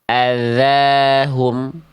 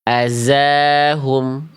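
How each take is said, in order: First: The middle consonant is a dh sound, as in 'this'. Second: The middle consonant is a buzzing z sound. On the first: The speaker calls it right. "Jawaban yang lebih tepat adalah jawaban yang yang C" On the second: The speaker calls it wrong. "Karena dia dibaca menjadi huruf zai"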